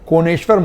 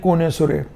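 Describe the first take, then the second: First: The name ends with a 'shwar' sound. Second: The name ends with a 'sure' sound. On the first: This is the official form of the name. "Proper noun" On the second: This is the local form that everyone understands. "Lucknow वाले हम लोग कहते हैं कोनेसुरे"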